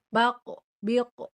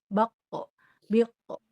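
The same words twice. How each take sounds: Both takes have the same delivery.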